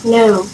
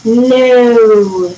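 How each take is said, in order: First: Brief, low "No"; short answer. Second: Long drawn-out "No"; long answer. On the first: Mom gives her short answer, a brief low "No". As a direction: cut the word "No" short. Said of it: "short answer". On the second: Dad gives his long answer, a drawn-out "No". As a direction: stretch the vowel of "No" right out. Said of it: "long answer". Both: A narrator's reading.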